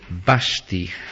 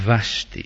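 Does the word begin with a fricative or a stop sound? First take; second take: stop; fricative. First: The first sound is a stop, like b. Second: The first sound is a fricative v. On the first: This is how Greek speakers would say it. "Dirían más bien vasti" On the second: This is the original sound Greek speakers find hard. "que no vasti"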